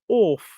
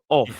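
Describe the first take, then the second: First: It has an old-fashioned posh 'orf' vowel. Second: It has a plain, ordinary modern vowel. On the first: "she had some wonderful "orf" instead of" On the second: "instead of "off""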